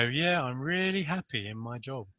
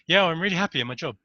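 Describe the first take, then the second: First: Unconvincing yes. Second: Fake cheerful yes. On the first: Retold or imitated. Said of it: "they go". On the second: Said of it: "they'll be going".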